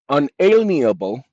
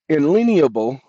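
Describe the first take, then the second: First: The word begins with an 'un' sound. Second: The word begins with an 'in' sound. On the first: The speaker calls it right. "it is unalienable" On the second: The speaker calls it wrong. "I'm saying it the wrong way. Inalienable, nope"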